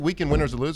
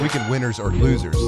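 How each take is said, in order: First: The phrase is rushed and mumbled together. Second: The phrase is spoken slowly and clearly.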